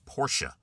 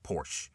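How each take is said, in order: First: The word is said with two syllables. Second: The word is said with one syllable. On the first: The speaker calls it right. "It's two syllables" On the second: The speaker calls it wrong. "It is not"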